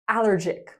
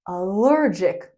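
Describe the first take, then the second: First: The stress is on the first syllable. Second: The stress is on the second syllable. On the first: The speaker calls it wrong. "not allergic" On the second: The speaker calls it right. "We say allergic"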